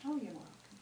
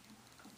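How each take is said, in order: First: Said in the usual way. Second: A faint repeat trailing away; quiet echo. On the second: Retold or imitated. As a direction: repeat it much softer, almost gone. Son repeating his reply.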